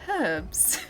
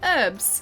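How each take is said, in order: First: The word starts with a clear H sound. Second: The word starts without an H sound. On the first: "not herbs" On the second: "gotten rid of the H and said herbs"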